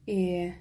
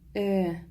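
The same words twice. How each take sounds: First: The vowel is drawn out long. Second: The vowel is said short. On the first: "в слове «элеватор» и «энергия» «э» произносится протяжнее" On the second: "В слове «эшлекле» и «элек» «э» произносится коротко"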